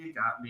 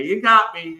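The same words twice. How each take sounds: First: Soft, fading off into a laugh; laughing concession. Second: Said in the usual way. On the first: Retold or imitated. New bartender admits the hot dog cart prank, laughing quietly. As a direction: give it up with a chuckle, trailing away.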